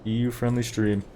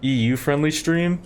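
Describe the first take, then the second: First: "U" stressed, tune falling to the end; falling confirmation. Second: EU friendly stream asked with a rise; rising question. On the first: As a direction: confirm it flatly, "E U friendly stream" settling down. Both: Shown as a demonstration. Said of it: "Yep, that's right".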